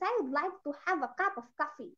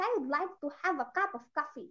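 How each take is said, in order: First: It is spoken in a Nigerian accent. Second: It is spoken in a Nigerian accent.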